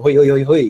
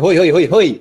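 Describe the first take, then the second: First: Loud calling hoy; sudden shout. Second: Loud calling hoy, higher pitch; sudden shout. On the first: Host demonstrating a shout to grab attention, loud call. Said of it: "kung bigla akong sumigaw ng ganun". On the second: Webinar host yelling to grab viewers' attention, sudden shout. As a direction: yell hoy to grab the room. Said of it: "Parang sinabi". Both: Shown as a demonstration.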